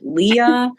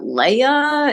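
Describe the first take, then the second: First: It is said as two syllables, lee-uh. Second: It is said as two syllables, lay-uh. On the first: "Is it Leah?" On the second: "I hear people say, "Is that Leia?"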